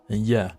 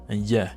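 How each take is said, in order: The two takes are said the same way.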